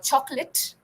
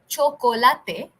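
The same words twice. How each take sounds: First: The word is said with English pronunciation. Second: The word is said with Spanish pronunciation.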